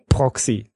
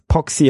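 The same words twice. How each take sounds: First: It is said like 'proxy', with an r. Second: It is said like 'poxy', without an r. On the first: This is the ordinary network term. The speaker calls it wrong. "und nicht Proxy" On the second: This is the name of the vulnerability. The speaker calls it right. "dass es Proxy heißt"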